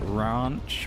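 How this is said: It is said with a posh British vowel. The speaker calls it wrong. "they'll call it ranch, which just sounds weird. It sounds a bit too posh"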